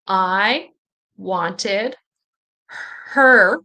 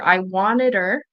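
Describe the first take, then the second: First: The H at the start of 'her' is pronounced. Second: The H at the start of 'her' is dropped. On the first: "with H" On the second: "you might not hear the H here"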